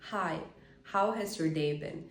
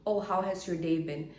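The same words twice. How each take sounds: First: Slow, unhurried greeting; relaxed and easy, no pressure. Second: Quick, rushed greeting; hurried delivery with pressure in it; fast. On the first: Showing the seductive way to greet a crush: slow, relaxed. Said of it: "if I talk slowly". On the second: Showing the wrong way to greet a crush: fast, rushed. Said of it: "when I talk very fast". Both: Shown as a demonstration.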